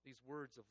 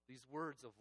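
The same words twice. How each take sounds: The two takes are said the same way.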